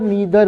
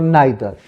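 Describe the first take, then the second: First: The first vowel sounds like 'ee'. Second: The first vowel sounds like 'eye'. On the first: The speaker calls it wrong. "आप कभी ईदर नीदर मत बोलिएगा" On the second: The speaker calls it right. "It's ईदर और नाइदर।"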